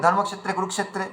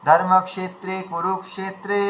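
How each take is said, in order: First: Quick ধর্মক্ষেত্রে কুরুক্ষেত্রে slurred into one word; wrong way: blend ধর্মক্ষেত্রে into কুরুক্ষেত্রে; rushed and merged, no gap; words run together. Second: Slow, a small gap between ধর্মক্ষেত্রে and কুরুক্ষেত্রে; words kept apart. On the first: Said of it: "একসঙ্গে মিলে গেছে". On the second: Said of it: "ভেঙে ভেঙে বলা উচিত ছিল". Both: Shown as a demonstration.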